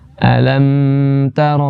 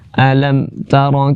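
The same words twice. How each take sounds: First: The m is held for too long. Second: The m is cut off abruptly with no movement. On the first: "jangan terlalu lama ... bukan" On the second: "jangan dibaca mati dengan semati-matinya ... mati tanpa gerakan sama sekali"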